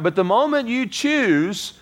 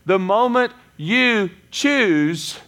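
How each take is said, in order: First: The last two words carry no special emphasis. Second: The last two words are strongly emphasized.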